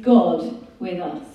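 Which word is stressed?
God. The word God carries the main stress. The one who came is God himself.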